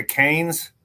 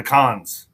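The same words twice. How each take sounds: First: Cannes said like KANES, with a long a; Cannes, the English way. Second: Cannes said CAHNZ with a broad ah; Cannes, the French way. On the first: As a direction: Cannes rhymed with canes, trying out one pronunciation. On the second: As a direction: Cannes with an open ah, trying out the other pronunciation. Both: Shown as a demonstration. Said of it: "I just don't know how to say it".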